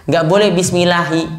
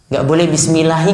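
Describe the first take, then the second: No difference in how they are said.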